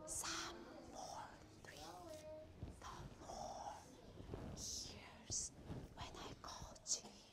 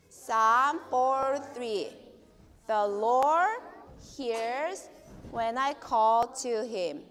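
First: It is said in a small, quiet voice. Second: It is said in a normal speaking voice.

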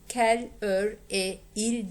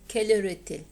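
First: No t sound is heard before the final il. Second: A t sound links into the final il. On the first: The speaker calls it wrong. "Kel, ör, il diye hiçbir zaman okumayız" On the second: The speaker calls it right. "Burada kaynaşma yapıyoruz"

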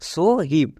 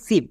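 First: It starts with separate s and h sounds. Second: It starts with a single sh sound. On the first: The speaker calls it wrong. "আমরা যদি এই স্টাইলে বানান করি তাহলে একদম ভুল হবে" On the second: The speaker calls it right. "এর জন্য তালিবস্য উচ্চারণ করছি"

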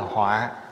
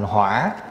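First: The syllable has a heavy, low tone. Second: The syllable has a dipping tone. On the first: It means a calamity. "nó thành dấu dấu nặng ở dưới là họa" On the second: It means fire. "lại đi để dấu hỏi vô, thành hỏa là lửa"

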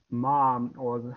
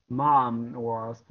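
The two takes are said the same way.

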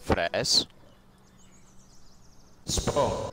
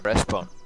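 First: It is said slowly, word by word. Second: It is said at normal speed.

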